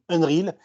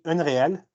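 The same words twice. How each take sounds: First: The word is said with an American accent. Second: The word is said with a French accent.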